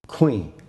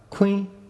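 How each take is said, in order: First: The word is said on a low tone. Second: The word is said on a high tone. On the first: It means chicken. "low tone, means chicken" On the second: It means knife. "high tone, means knife"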